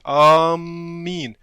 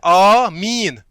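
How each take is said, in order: First: The m sound is doubled and held. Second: The m sound is single and light. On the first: The speaker calls it wrong. "अक्सर लोग इसमें गलती करते हैं" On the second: The speaker calls it right. "मीम पे तशदीद नहीं है"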